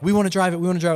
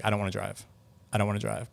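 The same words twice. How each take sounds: First: Higher-pitched imitation of keen gamers; retold eagerness. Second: Soft, subdued imitation of refusal; retold freaked-out reluctance. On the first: Imitating gamers who were having so much fun, eager. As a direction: mimic an eager crowd pleading, pitched up. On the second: Imitating gamers after one scary ride, subdued and reluctant. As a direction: mimic a spooked rider backing out quietly. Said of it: "Freaked out by it".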